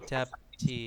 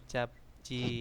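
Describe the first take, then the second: Both takes have the same delivery.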